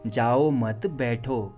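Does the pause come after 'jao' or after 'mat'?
mat. There is a pause right after 'mat'. Do not go, please sit. "Please बैठ जाओ, जाओ मत"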